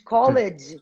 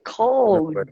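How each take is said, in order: First: The ending is said as an extra syllable. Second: The word is said as one syllable. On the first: The speaker calls it wrong. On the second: The speaker calls it right.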